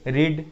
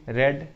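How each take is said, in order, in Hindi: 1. स्वर लंबा है, 'reed' जैसा। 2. स्वर छोटा है, 'red' जैसा।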